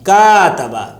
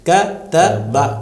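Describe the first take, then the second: First: The first vowel is stretched long. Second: The first vowel is short and clipped. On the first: The speaker calls it wrong. "ये जबर बढ़ गया, ... ये गलत" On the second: The speaker calls it right. "तो सिर्फ हरकत है जबर की, तो आपको एक टक की आवाज खाली निकालनी है"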